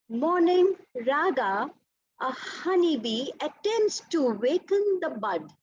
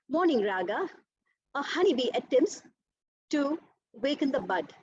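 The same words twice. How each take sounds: First: It flows in one unbroken breath. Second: It is broken by breaths between phrases.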